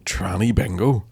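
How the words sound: It is said in a contemptuous, mocking tone. The name is meant as an insult. The speaker calls it wrong. "it's offensive"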